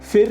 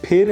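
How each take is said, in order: First: The word begins with an f sound. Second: The word begins with an aspirated p sound. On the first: The speaker calls it wrong. "फिर नहीं है guys" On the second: The speaker calls it right. "फिर है"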